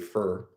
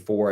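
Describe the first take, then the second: First: The vowel is reduced, sounding like fur. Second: The vowel is full and clearly enunciated. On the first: "I say fur" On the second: "Instead of saying for"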